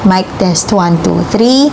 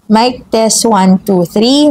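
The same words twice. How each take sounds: First: Background noise is left in without noise cancellation. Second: Background noise is filtered out by noise cancellation. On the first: "This is my voice without um, noise cancellation feature" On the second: "I have the noise cancellation feature turned on"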